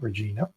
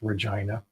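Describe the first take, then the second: First: It is said the outsider American way. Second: It is said the local Canadian way. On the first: The speaker calls it wrong. "not Regina" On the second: The speaker calls it right. "the city's name is pronounced Regina"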